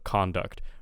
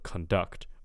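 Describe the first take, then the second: First: The stress is on the first syllable. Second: The stress is on the second syllable. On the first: It is used as a noun. "when it's a noun, the stress will be on the first syllable" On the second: It is used as a verb. "when it's a verb, the stress will be on the second syllable"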